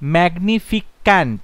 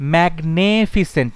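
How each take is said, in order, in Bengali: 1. শেষে একটা 'k' ধ্বনি আছে: -ficant। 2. দ্বিতীয় দলে একটা 'e' স্বরধ্বনি আছে: magne-। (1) "ম্যাগনিফিক্যান্ট না" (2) "ম্যাগনেফিসেন্ট নয়"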